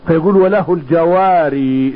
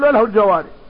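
First: The last word ends with a long ee vowel. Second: The last word ends clipped, without the ee vowel. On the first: "وبعض العلماء يثبت الياء في الوقف" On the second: "ولكن اكثر القراء اذا قرأوا في الوقف ... ما يثبت الياء"

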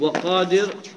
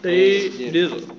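First: The long vowel is a plain open a. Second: The long vowel leans toward e (imala).

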